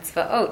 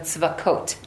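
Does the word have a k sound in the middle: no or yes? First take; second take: no; yes. First: The word is said without a k sound. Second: The word is said with a k sound. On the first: This form says the actual divine name. "instead of saying Hashem tzvaot, which is saying Hashem's name" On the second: This form avoids saying the actual divine name. "We put that kuf in there"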